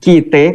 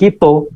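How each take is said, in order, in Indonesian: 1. Lafal Betawi yang berakhir dengan bunyi e. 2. Lafal Palembang yang berakhir dengan bunyi o. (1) "kata orang Betawi" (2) "katanya orang Palembang"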